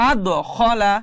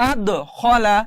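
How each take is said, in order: Both takes have the same delivery.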